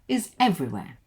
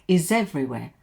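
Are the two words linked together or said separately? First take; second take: separate; linked. First: The two words are said separately, not linked. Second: The two words run together into one. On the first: "it's a lot clearer without the linking" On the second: "I could have linked is to everywhere, like"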